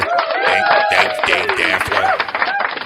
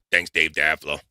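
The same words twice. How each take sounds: First: Squeaky mock thank-you voice; silly high voice. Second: Said in the usual way.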